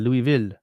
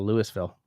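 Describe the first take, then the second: First: The name is said the way Quebec says it. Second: The name is said the way Ontario says it. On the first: "In Quebec, it would be called" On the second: "In Ontario, it'd be called"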